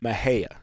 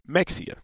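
First: An h sound, and the name ends in 'ee-ah'. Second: A 'ks' sound, and the name ends in 'ee-ah'. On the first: This is the proper way to say it. "the proper way to say it is Mahia" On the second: The speaker is from the north. "people from the north, they say Mexia"

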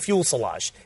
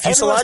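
First: It is said like 'fuel' plus 'silage'. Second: It is said as 'fuse' plus 'lage'. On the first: The speaker calls it wrong. "it's the way I pronounce it. I say fuel silage" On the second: The speaker calls it right. "Is it fuselage?"

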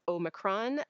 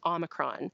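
First: The first O is a long vowel. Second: The first O is a short vowel. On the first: "the sort of Canadian UK pronunciation" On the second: "The American pronunciation is more like a short O"

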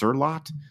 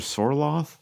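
First: The name is said in a Norwegian way. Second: The name is said in an anglicized way. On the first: The speaker calls it right. "technically pronounced Sorlot if you're Norwegian" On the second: The speaker calls it wrong. "we're just woefully mispronouncing it"

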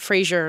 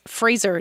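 First: The name sounds like Frasier. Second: The name rhymes with razor. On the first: The speaker calls it wrong. "not Fraser, like Fraser Crane" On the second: The speaker calls it right. "it's Fraser"

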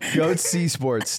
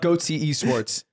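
First: Esports is said without an extra E sound. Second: Esports is said with an extra E sound. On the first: The speaker calls it right. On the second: The speaker calls it wrong.

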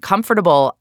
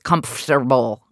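First: Every syllable is pronounced as the word is spelled. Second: It is not pronounced the way it is spelled. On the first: "I am saying the way that it is spelled" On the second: "The rest of the world says comfortable"

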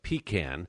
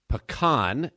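First: It is said the New York way. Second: It is said the local Houston way. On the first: This is how the speaker said it back in New York. "instead of pecan" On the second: This is how people say it locally in Houston. "I had to learn how to say pecan"

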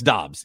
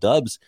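First: The name rhymes with jobs. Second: The name rhymes with clubs. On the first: This is how he says his own name. The speaker calls it right. "No, it's Dobbs" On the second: This is how people said it before he corrected them. The speaker calls it wrong. "He's always called Dubs in college"

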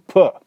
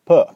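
First: The p has a strong puff of air. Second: The p has little puff of air. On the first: "English and aspiration. Well, we have it" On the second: "Japanese is more like puh"

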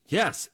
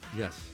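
First: It is said with more energy and oomph. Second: It is said flatly, with little energy.

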